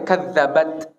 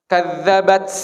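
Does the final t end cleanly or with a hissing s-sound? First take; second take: clean; hissing. First: The final t stops cleanly with little air. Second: The final t is released with a hissing s-sound. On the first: The speaker calls it right. "ta itu nggak mengalir" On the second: The speaker calls it wrong. "Banyak yang taknya itu ada S-nya"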